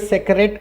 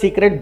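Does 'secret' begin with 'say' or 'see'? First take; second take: say; see. First: The first vowel sounds like 'say'. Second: The first vowel sounds like 'see'. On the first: The speaker calls it wrong. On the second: The speaker calls it right.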